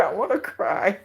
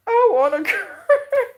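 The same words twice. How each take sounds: First: Said in the usual way. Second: Much higher, louder, laughing through "cry"; laughing near tears. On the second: Real, not acted. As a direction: voice breaking into a laugh while about to cry.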